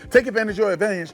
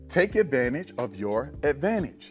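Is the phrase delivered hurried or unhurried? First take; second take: hurried; unhurried. First: It is said hurriedly, without weight or authority. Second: It is said slowly, with weight and authority. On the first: The speaker lacks confidence. The speaker calls it wrong. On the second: The speaker knows what they are talking about. The speaker calls it right.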